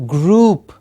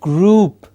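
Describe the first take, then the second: First: The vowel is a long oo sound. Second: The same.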